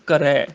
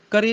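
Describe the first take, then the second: First: ਕਰੈ ending in open ai; correct vowel shown. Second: ਕਰੇ ending in narrow ay; wrong vowel shown. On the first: Teacher correcting students, ਕਰੈ with open ai. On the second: Teacher showing the misreading, ਕਰੇ with close e. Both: Shown as a demonstration. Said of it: "ਕਰੇ ਨਹੀਂ, ਕਰੈ".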